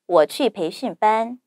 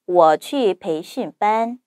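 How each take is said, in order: First: It is spoken at natural native speed. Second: It is spoken slowly. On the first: "두 번째, 원어민 발음 속도로 자연스럽게" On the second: "첫 번째, 천천히"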